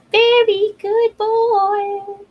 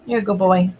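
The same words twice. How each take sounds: First: Slow high doggy praise; high drawn-out praise. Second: Said in the usual way. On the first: Real, not acted.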